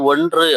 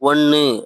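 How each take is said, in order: First: The middle is pronounced with a full 'ndr' sound. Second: The middle is reduced to a plain 'nn' sound. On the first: This is the written form. "எழுதும்போது ஒன்று அப்படின்னு எழுதுவோம்" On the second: This is the everyday spoken form. "பேசும் பொழுது ஒன்னு"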